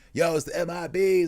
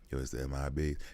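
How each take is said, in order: First: It is said loudly with hyped energy. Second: It is said calmly in a conversational voice. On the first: "So he doesn't like" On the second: "He's doing it like, ... a normal conversational voice"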